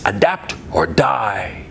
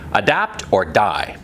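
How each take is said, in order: First: It is said in a grand, dramatic way. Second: It is said in a plain, ordinary way.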